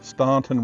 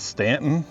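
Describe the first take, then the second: First: The first syllable sounds like 'stawn'. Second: The first syllable sounds like 'stan'. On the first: "I'm going to pronounce it the way it's spelled" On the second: "Many people will correct me and say it's Stanton"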